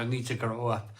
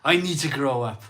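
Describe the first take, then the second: First: Said in the usual way. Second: Louder, pressing down on I; louder insistent repeat. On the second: Retold or imitated. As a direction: say it again like scolding yourself. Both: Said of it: "you look in the mirror and you go".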